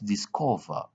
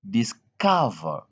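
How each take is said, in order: First: The 'o' is said as an 'o' sound. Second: The 'o' is said as an 'uh' sound. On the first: The speaker calls it wrong. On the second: The speaker calls it right.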